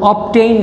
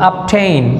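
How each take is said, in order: First: The consonant before 'tain' is a voiced b. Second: The consonant before 'tain' is a voiceless p. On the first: The speaker calls it wrong. "অবটেইন না" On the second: The speaker calls it right. "এটার pronunciation হবে আপটেইন"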